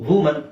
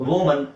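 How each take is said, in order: Both takes have the same delivery.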